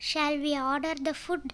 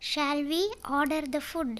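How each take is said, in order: First: Said in the usual way. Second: "Shall we" lifted at "we", then "order the food"; phrased for learners. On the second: Shown as a demonstration. English teacher repeats the sentence for learners, phrased in parts. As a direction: break after "we", letting its pitch rise.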